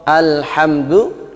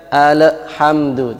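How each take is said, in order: First: Alhamdu with an echoing bounce on the l; wrong bounced al. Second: Alhamdu with a clean l and no bounce; plain al. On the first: Teacher demonstrates the mistaken reading of alhamdu, bounced l. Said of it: "al kadang dibaca ada pantulannya, ini salah". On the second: Teacher shows the correct alhamdu without the echo. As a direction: say alhamdu with the l held still. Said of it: "tidak ada pantulannya". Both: Shown as a demonstration.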